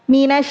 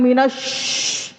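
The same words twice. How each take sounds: First: The hissing sound is a spread sh. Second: The hissing sound is a plain s. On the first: The speaker calls it right. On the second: The speaker calls it wrong.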